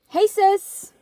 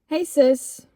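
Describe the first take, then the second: First: It is read in an acted, put-on character voice. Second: It is read in the speaker's normal voice.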